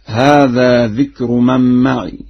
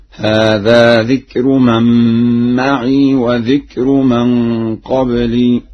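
First: Said in the usual way. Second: "معي" ending in a long unvowelled ii; slow measured recitation, "معي" as ma'ii, not ma'iya; Warsh reading. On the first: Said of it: "وقوله تعالى". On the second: Shown as a demonstration. Teacher recites Warsh's example, "معي" with a still final ya. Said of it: "بإسكان الياء، هكذا".

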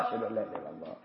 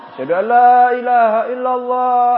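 First: Much softer, lower murmured reply; quiet reply. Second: Loud, chanted call line; sung, call it out like the muezzin; sung, muezzin's call. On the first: Preacher voices the listener quietly answering the muezzin. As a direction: answer under your breath. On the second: Preacher voices the muezzin in the answering demo, loud and chanted. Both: Shown as a demonstration. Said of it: "Itu metode pertama".

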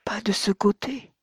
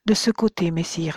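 First: Higher, whispered «Pas de ce côté»; young woman whispering, correcting him. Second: Put-on young woman directing him to the back of the cave; pointing the way. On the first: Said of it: "lui dit la très jeune femme". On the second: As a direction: firmly show him «De ce côté, messire». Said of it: "fit-elle". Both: A narrator's reading.

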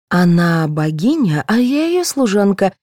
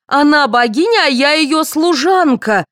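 First: Starts slow and level, lifts on the second half; contained resentment. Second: High, indignant repeat, all at full pitch; outraged. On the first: Actress explaining her lesser role, restrained resentment. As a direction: state the grievance, holding back. First take of the offending line. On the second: Actress repeating her humiliating role for all, outraged. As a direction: throw the line back in outrage. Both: A narrator's reading.

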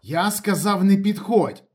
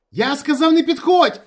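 First: High, loud dry-throated warning; tense raised warning; parched, insistent voice. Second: Very high, loud frantic shout; full-out panicked yell; hysterical scream. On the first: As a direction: repeat the warning, dry-mouthed. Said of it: "повторив Ніколаєч пересушеним голосом". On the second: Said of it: "істерично закричав Ніколаєч". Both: A narrator's reading.

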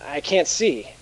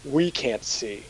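First: Said in the usual way. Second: "We" pushed first and stressed, the rest said softer. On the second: Acted. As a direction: lean hard on "We" to correct him. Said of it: "The pronoun you're looking for is we".

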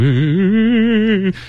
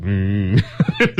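First: High spooky ghost moan; ghost wail. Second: Nasal buzzing insect hum; mosquito buzz. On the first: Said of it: "ghosts might be going". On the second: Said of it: "and mosquitoes go". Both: Pretend.

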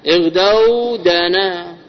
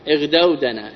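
First: اغدوا دنا slowly, with long stretched vowels; slow teaching model of اغدوا دنا, each part held long; drawn-out example word. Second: Said in the usual way. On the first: Shown as a demonstration.

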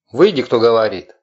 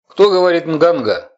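First: Loud, nasal inhuman call; an unearthly voice demands, inhaled words; eldritch horror. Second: High, loud, nasal inhuman voice; eldritch horror. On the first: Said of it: "странный голос раздался снова". (громкий гнусавый нечеловеческий голос) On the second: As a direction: speak as if breathing in, unearthly. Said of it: "гнусавый и какой-то даже нечеловеческий голосок". (гнусавый нечеловеческий голосок на вдохе) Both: Acted.

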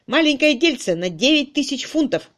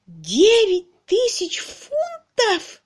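First: Raised, emphatic revelation; emphatic announcement. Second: Slow, very high wail of disbelief; impossibly high. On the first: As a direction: announce the sum with force. Man announces the lawsuit's sum. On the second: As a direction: wail each word at the top of your voice. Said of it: "достиг немыслимых высот". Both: A narrator's reading.

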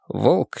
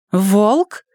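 First: Said in the usual way. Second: High, disbelieving question; can't believe it's him; incredulous. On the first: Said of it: "plain narration of the name". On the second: A narrator's reading. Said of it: "недоверчиво спросила Эмили".

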